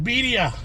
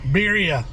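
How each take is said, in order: First: The word is said with a Spanish pronunciation. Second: The word is said with an English pronunciation. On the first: The speaker calls it right. "But you should say it Bedia, because that's, that's how you say it" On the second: The speaker calls it wrong. "it just feels wrong when you say Beria"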